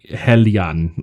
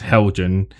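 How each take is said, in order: First: The name is said in its original-sounding form. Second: The name is said in a common anglicized form. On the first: This respects the company's actual name. "I think the the correct way is like Hellion" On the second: This is the popular local nickname. "everyone else says Helgen"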